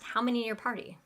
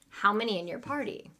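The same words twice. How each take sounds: First: The question is said very quickly. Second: The question is said at a normal speed.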